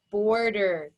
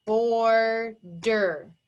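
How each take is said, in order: First: Said in the usual way. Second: BORDER broken into BOR, pause, DER; slow two-beat "bor-der"; pounded syllables. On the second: Shown as a demonstration. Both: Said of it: "we have two pounds".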